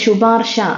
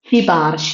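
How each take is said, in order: First: The first syllable has an 'u' vowel. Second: The first syllable has an 'i' vowel. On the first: The speaker calls it wrong. "ശുപാർശ എന്നല്ലേ നമ്മൾ ഇതുവരെ പഠിച്ചുകൊണ്ടിരുന്നത്. പക്ഷെ അല്ല" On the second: The speaker calls it right. "ഇനി തൊട്ട് എങ്ങനെയാ പറഞ്ഞു പഠിക്കേണ്ടത്?"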